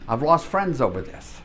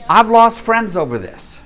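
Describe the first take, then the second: First: Said in the usual way. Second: Louder and higher, laughing as it comes out; amused, laughing rueful confession. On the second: Real, not acted. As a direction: laugh the admission out, pitched up. Laughing over a rueful admission.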